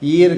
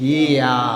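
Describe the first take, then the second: First: The word ends with a clear r sound. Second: The word ends in an open vowel sound. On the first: The speaker calls it wrong. "Non native Germans ఎవరైనా సరే ఈర్ కాదు" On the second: The speaker calls it right. "Native Germans వచ్చేసి ఈయా"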